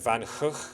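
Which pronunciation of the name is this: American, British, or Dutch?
Dutch. Both G's are throaty sounds, like in 'loch'. "the correct pronunciation, according to Dutch people; both G's are kind of like a sound, like the Scottish loch"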